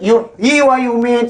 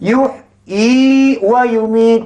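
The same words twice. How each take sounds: First: The vowel is kept short, not lengthened. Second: The vowel is held long and drawn out. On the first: The speaker calls it wrong. "salah ke betul? ... Sebab dia tak amalkan huruf ni" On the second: The speaker calls it right. "Jadi mesti baca pan... Panjang"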